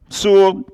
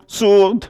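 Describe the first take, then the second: No difference in how they are said.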